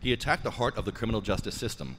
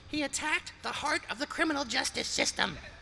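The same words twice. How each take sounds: First: It is said in a plain regular voice. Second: It is said in a put-on dramatic voice.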